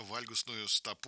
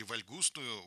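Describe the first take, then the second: First: "вальгусную" stressed on the first syllable, ВАЛЬ. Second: "вальгусную" stressed on ГУС, slowed down; stress on second syllable. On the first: Host offers the doctor one stress option, first-syllable stress on "вальгусную". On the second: Host offers the other option, second-syllable stress on "вальгусную". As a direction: hit ГУС in "вальгусную", drawing the word out. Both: Shown as a demonstration. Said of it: "Куда ставим ударение?".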